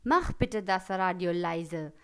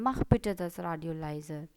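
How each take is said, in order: First: Angry command. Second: Request form. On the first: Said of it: "गुस्से में कैसे बोलेंगे". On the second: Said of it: "request form में भी बोल सकते हैं". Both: Shown as a demonstration.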